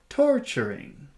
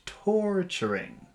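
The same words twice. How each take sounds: First: The first syllable is lengthened and raised in pitch. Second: The first syllable is lengthened at normal pitch. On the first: "And then we'll raise the pitch" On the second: "we'll make that a longer sound"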